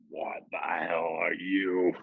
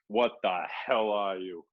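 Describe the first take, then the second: First: It is said in a deep, rough, guttural voice. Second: It is said in an ordinary speaking voice.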